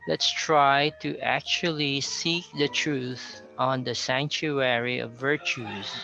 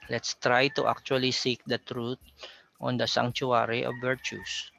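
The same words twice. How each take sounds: First: The T sounds are said like CH. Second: The T sounds are said as plain T. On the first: "there's a lot of C H sounding T there" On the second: "as a Filipino, you might possibly pronounce that as"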